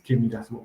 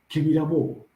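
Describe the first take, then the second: First: The final s of the verb is pronounced. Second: The final s of the verb is dropped. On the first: The speaker calls it wrong. "no es que miras bobo" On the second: The speaker calls it right. "no pronuncian mucho la S al final"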